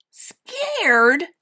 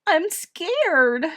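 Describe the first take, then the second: First: High, loud, incredulous question; scornful little bear, rising; snorted scorn. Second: Put-on high, frightened child's plaint; acted tearful little girl. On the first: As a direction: echo it in mocking disbelief. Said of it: "Little Bear snorted". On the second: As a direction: confess fear as if sobbing. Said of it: "Edith sobbed". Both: A narrator's reading.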